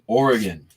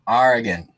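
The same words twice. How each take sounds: First: The first syllable sounds like 'or'. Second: The first syllable sounds like 'are'. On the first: The speaker calls it right. "It's an O. It's Oregon" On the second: The speaker calls it wrong. "as people who don't know how to pronounce it"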